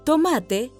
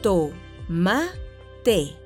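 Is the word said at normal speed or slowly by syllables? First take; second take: normal; slowly. First: It is said at normal speed. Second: It is said slowly, syllable by syllable.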